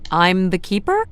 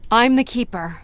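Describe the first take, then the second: First: It sounds unsure and questioning. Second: It sounds confident and meant.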